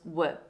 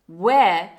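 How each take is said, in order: First: The word has a weak schwa vowel. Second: The word has a full, strong vowel.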